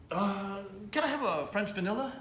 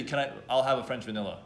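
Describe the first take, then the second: First: A hint of a hesitant, higher voice; unsure customer ordering. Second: Said in the usual way. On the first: Shown as a demonstration. Coach mocks a timid order at Tim Hortons, mildly hesitant. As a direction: ask like you're not sure what you want. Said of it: "Why are you talking like that". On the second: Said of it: "Just say".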